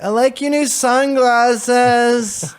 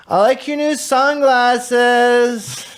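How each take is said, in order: First: High, very slow dreamy junkie voice; groggy like a zombie after waking; junkie voice echoed. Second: High, very slow, dreamy junkie voice; slow high spaced-out junkie line. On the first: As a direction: hungover imitation of the junkie line. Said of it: "That next morning I was like". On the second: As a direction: drag it out like a dazed stoner. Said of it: "He says in his junkie voice". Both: Retold or imitated.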